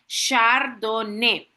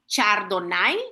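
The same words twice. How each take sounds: First: It is said with the French pronunciation. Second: It is read out letter by letter as spelled. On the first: The speaker calls it right. "sino que se pronuncia Chardonnay, así como lo ven en pantalla" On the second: The speaker calls it wrong. "yo no he dicho Chardonnay, así como se escribe"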